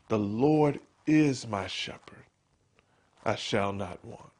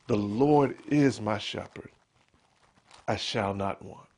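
First: It is whispered in a pleading, prayerful way. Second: It is whispered in a self-reassuring way. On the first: The speaker is asking God for help. "sometimes you whisper it as a prayer" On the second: The speaker is reminding himself of the truth. "sometimes you whisper it as a reminder"

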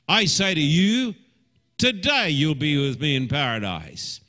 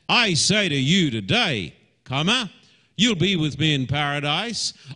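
First: The break comes right before the word today. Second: The break comes right after the word today.

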